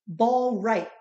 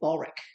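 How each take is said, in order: First: The name is said carefully at normal speed. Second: The name is said quickly and run together. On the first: "they actually pronounce it Ballreich" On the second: "when they say it really quickly, it sounds like Ballreich"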